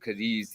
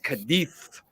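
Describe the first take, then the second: First: The final sound is a z. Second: The final sound is a soft th. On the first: This is how everyone else says it. "everybody else says Cadiz" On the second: This is how it is said in Spain. "It's Cadiz when you're in Spain. Yeah, the Z is like a T H"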